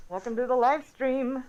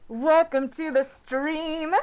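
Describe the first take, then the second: First: Said in the usual way. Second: Slow, drawn-out stream welcome; announcer voice. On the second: Acted. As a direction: roll it out like a host opening the show. Opening the live stream.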